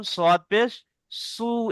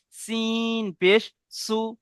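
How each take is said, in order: First: "সদ" and "সু" with rounded lips, a full heavy s; round-mouthed s in "সু"; rounded Sad sound. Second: "সিন" and "সু" with a thin whistle-like s; unrounded, whistling s in "সু"; whistling Sin sound. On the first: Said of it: "সদের মুখটি গোল করে উচ্চারণ হবে". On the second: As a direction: draw out "সিন", keeping the s like a whistle. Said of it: "সিনটি সিটির মতো আওয়াজ হবে". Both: Shown as a demonstration.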